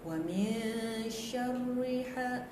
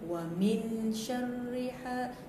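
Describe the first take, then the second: First: The n sound of min is hidden, nasalized. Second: The n sound of min is pronounced clearly. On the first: The speaker calls it right. "bacaannya betul adalah wa min syarriha" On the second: The speaker calls it wrong. "Bukannya wa min syarriha"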